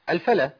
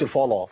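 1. الصوتان l و f خفيفان ورقيقان. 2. الصوتان l و f ثقيلان وغليظان. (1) "لا الفلا الفلا" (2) "مش الفلا فلا"

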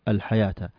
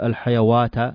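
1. لا يأتي صوت 'w' قبل الحركة الأخيرة. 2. يأتي صوت 'w' قبل الحركة الأخيرة. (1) "احذف هذا وانطق هذا الأعلى الحياة" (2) "ما نقول الحيوات"

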